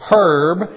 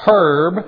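First: It is said the British way. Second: The same.

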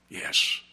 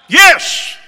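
First: It is whispered quietly. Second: It is shouted loudly.

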